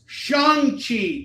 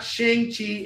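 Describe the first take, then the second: First: "Shang-Chi" said as SHAHNG-chee, high and drawn out; correct pronunciation. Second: "Shang-Chi" said as SHENG-chee, with a flattened vowel; wrong pronunciation. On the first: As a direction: stretch "Shang-Chi" slowly with an open "ah". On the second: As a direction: say "Shang-Chi" slowly with "ay" as in "shank". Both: Shown as a demonstration. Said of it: "not Shang-Chi".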